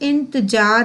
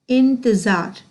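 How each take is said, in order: First: The consonant before the last vowel is j. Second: The consonant before the last vowel is z. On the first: The speaker calls it wrong. "कभी भी इंतजार नहीं बोलना" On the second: The speaker calls it right. "क्या बोलेंगे?"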